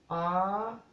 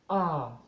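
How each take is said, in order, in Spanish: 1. Se dice en tono alto. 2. Se dice en tono bajo. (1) "tono alto" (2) "tono bajo"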